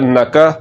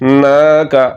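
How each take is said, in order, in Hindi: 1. n के बाद का स्वर छोटा करके बोला जाता है। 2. n के बाद का स्वर लंबा खींचकर बोला जाता है। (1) "अगर इसको पढ़ दिया नक" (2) "इसको लंबा करना है"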